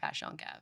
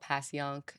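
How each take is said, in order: First: It is said the way locals pronounce it. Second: It is said the way outsiders pronounce it. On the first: The speaker knows the neighborhood. The speaker calls it right. "but it's, it's Passion Gave" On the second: The speaker is not from the neighborhood. The speaker calls it wrong. "some people call it Passyunk"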